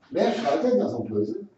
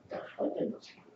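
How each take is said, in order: First: Said in the usual way. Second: Whispered repeat of the question to the bird; hushed whisper to the bird. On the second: Real, not acted. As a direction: drop to a breathy hush, much softer.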